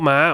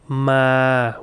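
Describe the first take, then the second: First: Said with the tone of the word for dog. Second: Said with the tone of the word for come. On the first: It means a dog. The speaker calls it wrong. "not ma ... dog" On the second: It means to come. The speaker calls it right. "which means come"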